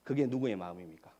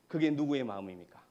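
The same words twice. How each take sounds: The two takes are said the same way.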